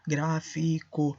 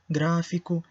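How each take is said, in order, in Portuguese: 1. Cada letra é pronunciada com clareza e por completo. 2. Alguns sons são reduzidos na fala do dia a dia. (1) "eu vou dizer com todas as letras" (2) "nós sim decimos"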